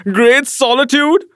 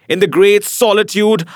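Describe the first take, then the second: First: High, incredulous echo with rising end; scornful cry. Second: Said in the usual way. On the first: A narrator's reading. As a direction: throw the phrase back as a scornful question. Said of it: "I cried".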